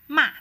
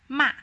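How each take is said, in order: First: The pitch falls from high to low. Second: The same.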